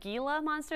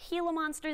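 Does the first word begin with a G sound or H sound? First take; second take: G sound; H sound. First: The first word begins with a hard G sound. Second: The first word begins with an H sound. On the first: The speaker calls it wrong. "a lot of people pronounce it Gila monster" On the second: The speaker calls it right. "if you want to sound like a professional, use an H"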